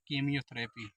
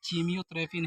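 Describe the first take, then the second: First: The word begins with a 'k' sound. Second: The word begins with a 'ch' sound. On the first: The speaker calls it right. "यहाँ पे इसका उच्चारण हम का से करेंगे" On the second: The speaker calls it wrong. "उच्चारण हम चा से नहीं, कीमियोथेरेपी नहीं करेंगे"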